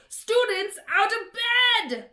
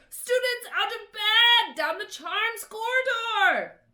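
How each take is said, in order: First: Much higher, loud, slow bellow. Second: Much higher, loud alarm shout; bellowed. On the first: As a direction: yell to raise the alarm. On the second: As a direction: yell down the corridor. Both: A narrator's reading. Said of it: "Peeves bellowed".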